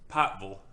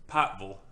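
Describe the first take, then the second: First: It is said in an Eastern Kentucky drawl. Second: It is said in an Eastern Kentucky drawl.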